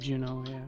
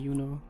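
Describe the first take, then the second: First: The name is pronounced the English way. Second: The name is pronounced the German way. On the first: "In English, it would be Juno" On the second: "in German it would be Juno"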